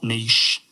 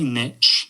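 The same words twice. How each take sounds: First: It is said with a British pronunciation. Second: It is said with an American pronunciation. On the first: "and not niche" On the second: "I say niche"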